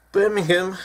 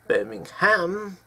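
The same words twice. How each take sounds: First: Birmingham ending in a short hum; British pronunciation. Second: Birmingham with a full ham, slowly; American pronunciation. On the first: Correcting Americans, Birmingham said the British way with hum. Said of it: "Ham, not hum". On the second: Mocking the Alabama way, Birmingham slowly ending in ham. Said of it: "ham, as in the meat from a pig". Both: Shown as a demonstration.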